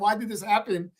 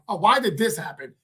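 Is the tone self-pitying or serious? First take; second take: serious; self-pitying. First: It is said in a serious, sincere tone. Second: It is said in a self-pitying, complaining tone.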